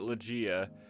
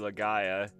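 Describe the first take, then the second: First: The middle sounds like 'gee', without an 'eye' vowel. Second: The middle sounds like 'guy', with an 'eye' vowel. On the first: This is how the speaker said it as a child. The speaker calls it wrong. "Growing up, we called it Legia" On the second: This is probably the correct name. The speaker calls it right. "it's probably Legaia"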